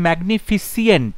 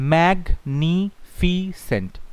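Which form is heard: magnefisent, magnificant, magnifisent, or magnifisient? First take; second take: magnifisient; magnifisent. First: The ending has an extra 'ee' sound: -fisient. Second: The ending is a plain 's' sound: -fisent. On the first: The speaker calls it wrong. "না ফিসিয়েন্ট নয়" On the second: The speaker calls it right. "কত হচ্ছে ম্যাগনিফিসেন্ট"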